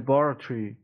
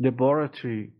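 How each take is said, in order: No difference in how they are said.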